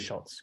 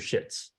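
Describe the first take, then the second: First: The vowel in the name sounds like O. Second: The vowel in the name sounds like E. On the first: This is the speaker's own preferred way. "I prefer to say Schultz" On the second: This is how the name's owner says it. "she literally pronounced her name"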